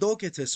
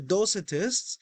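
First: It is said in a Greek-style pronunciation. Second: It is said in an anglicized pronunciation.

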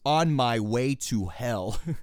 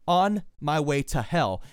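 First: Each word is pronounced clearly and fully. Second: The words run together with a reduced 'to'. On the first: "But to enunciate it is" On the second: "That's how I would say it"

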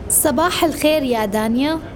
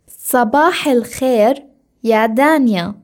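First: It is said at normal speed. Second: It is said slowly.

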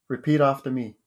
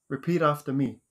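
Both takes have the same delivery.

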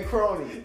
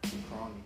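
First: It is said with lively, peppy energy. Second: It is said flatly, with little energy.

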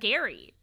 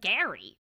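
First: The name is said in a standard accent. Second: The name is said in a New York accent. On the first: "instead of Gary" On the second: "let them have New York accents so they're calling him Gary"

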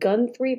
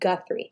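First: An n sound comes before the th. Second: No n sound comes before the th. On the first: The speaker calls it wrong. "I keep wanting to put an N in there" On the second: The speaker calls it right. "but it's Guthrie"

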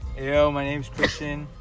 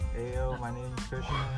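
First: It is said loudly. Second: It is said quietly.

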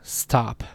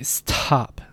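The two takes are said the same way.

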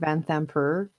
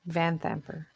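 First: The stress is on the second syllable. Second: The stress is on the first syllable. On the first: The speaker calls it wrong. "I've been pronouncing it Vanthamper" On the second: The speaker calls it right. "The stress is apparently on the van part"

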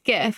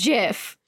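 First: It starts with a hard g sound. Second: It starts with a soft j sound. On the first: This is how most people say it. The speaker calls it wrong. "everyone pronounces it GIF" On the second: This is how the word's creator says it. The speaker calls it right. "the guy who made the word says it's GIF, like Jiffy peanut butter"

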